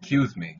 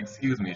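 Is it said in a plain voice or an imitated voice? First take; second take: imitated; plain. First: It is said imitating the woman's manner. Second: It is said in a plain, ordinary voice.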